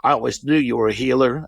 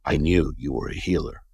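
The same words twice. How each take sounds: First: Said in the usual way. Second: Lower, knowing mother voice; imitated puffing mother. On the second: Girlfriend's mother declaring him a healer, low knowing voice. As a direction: drop low, as if after a drag. Mother repeats it after another puff.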